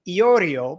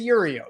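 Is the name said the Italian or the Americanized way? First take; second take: Italian; Americanized. First: The name is said in its original Italian form. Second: The name is said in a simplified Americanized form. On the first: This is the name's original form. "my name is actually Iorio, but we don't say that in America" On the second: This form is easier for people in America. "We say Yurio. You know, we make it easier on people"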